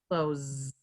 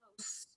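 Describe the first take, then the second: First: The word ends with a buzzing Z sound. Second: The word ends with a hissing S sound. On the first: Shut something, as in closing the door. "that sound at the end is like a Z" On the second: Something is near. "close with the S sound"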